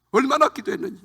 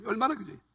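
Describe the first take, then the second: First: Higher, louder stress on 얼마나; emphatic. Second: 얼마나 repeated much softer with a falling tune; soft echo. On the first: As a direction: push 얼마나 up with force. Emphatic repetition in testimony. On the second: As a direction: let 얼마나 fade into a quiet echo. Echo of previous line, softer. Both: Real, not acted.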